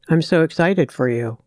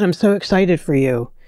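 First: The voice sounds flat and without enthusiasm. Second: The voice sounds warm and genuinely excited. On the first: The speaker does not really feel the joy they claim. The speaker calls it wrong. "as opposed to saying, oh wow, that's great" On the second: The speaker truly shares the other person's joy. The speaker calls it right. "making it sound real, like, oh my God"

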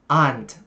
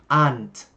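Both takes have the same delivery.

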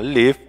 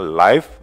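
First: The vowel is short, rhyming with give. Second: The vowel is long, rhyming with five. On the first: It means to reside or be alive. "maka artinya adalah tinggal ya atau hidup" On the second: It means broadcast in real time. "maka itu artinya adalah siaran langsung"

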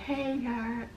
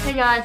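First: It is said slowly and drawn out. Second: It is said at normal speed.

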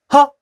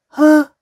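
First: The sound is short and clipped. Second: The sound is drawn out longer. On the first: The speaker calls it right. "점이 아니라" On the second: The speaker calls it wrong. "소리의 길이가 길어지는 겁니다"

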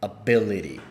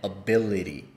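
The two takes are said the same way.

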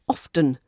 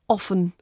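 First: The T sound is pronounced in the middle. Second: The T sound is left out entirely. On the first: "it's really posh to say the T sound" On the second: "it's posh when you omit it"

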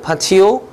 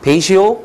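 First: It starts with 'pah' and has a 't' sound. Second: It starts with 'pay' and has a 'sh' sound. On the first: "파티오라고 얘기하는 사람도 있어요" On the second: "페이시오라고 얘기하는"

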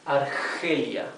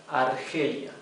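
Both takes have the same delivery.

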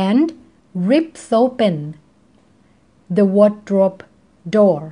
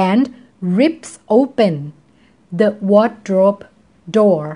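The two takes are said the same way.

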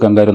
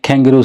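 First: It is said in an Indian accent. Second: It is said in an Australian accent. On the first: This is how it was learned at home. "നമ്മളെല്ലാം പറഞ്ഞു പണ്ട് കാലത്ത് പറഞ്ഞത് കങ്കാരു" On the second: This is how local people say it. "അപ്പോൾ അതിന് ഇവർ പറയുന്നത് കാങ്കരൂസ് എന്നാണ്"

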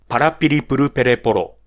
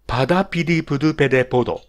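First: Each r sound is clearly tapped. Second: Some r sounds turn into d sounds. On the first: The speaker calls it right. "これが正しいラ行の言い方ですね" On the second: The speaker calls it wrong. "これもラ行が弱い人"

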